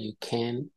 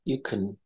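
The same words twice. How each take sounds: First: The word can is said fully and clearly. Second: The word can is said softly and reduced. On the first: The speaker calls it wrong. "bukan you can" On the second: The speaker calls it right. "Di pronounce sedikit halus"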